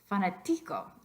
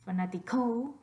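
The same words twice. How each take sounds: First: The stress is on the third syllable. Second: The stress is on the fourth syllable. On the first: "What about the second to last?" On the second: "put your voice stress on the last syllable"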